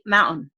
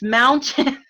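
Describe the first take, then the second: First: Mountain with the T dropped, as moun'n; dropped middle T. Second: Mountain with a crisp, clear T; slow, over-enunciated "moun-Tin" for mountain; middle T pronounced. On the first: Retold or imitated. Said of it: "is dropped. Like the word mountain, they say mountain". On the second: Shown as a demonstration. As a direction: hit the T hard in mountain. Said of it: "there's a T in that word".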